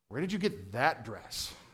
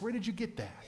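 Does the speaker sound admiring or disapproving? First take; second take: disapproving; admiring. First: It sounds scornful and disapproving. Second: It sounds warm and admiring.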